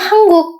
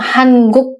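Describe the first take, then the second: First: The word is said fast, its sounds run together. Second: The word is said slowly, each sound kept clear. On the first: "kalau ngomongnya cepet jadinya 한국" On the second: "kalian ngomong 한국 pun tidak apa-apa"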